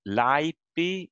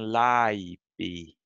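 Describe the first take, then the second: First: The first vowel and consonant are shorter. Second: The first vowel and consonant are longer. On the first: It is the basic nominative form. "laipi in nominative" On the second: It is a different case form. "the A is a little bit longer"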